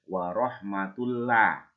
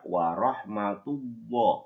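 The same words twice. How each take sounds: First: The l sound is thin, lips not pushed forward. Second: The l sound is thick, lips pushed forward. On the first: The speaker calls it wrong. "Nggak boleh dibaca" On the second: The speaker calls it right. "tapi harus baca ... Kedua bibir kita maju ke depan"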